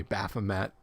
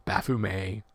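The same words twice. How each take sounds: First: Baphomet said quickly as "BAF-uh-met"; habitual anglicized pronunciation. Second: Baphomet drawn out as "baf-oo-MAY"; slow Baphomet ending on "may", silent T; French pronunciation. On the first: Host repeating his usual name, Baphomet as "baf-uh-met". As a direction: sound the final T in Baphomet, ending "met". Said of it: "I just always said Baphomet". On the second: Host correcting himself, Baphomet slowly as French "baf-oo-may". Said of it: "Baphomet is French". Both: Shown as a demonstration.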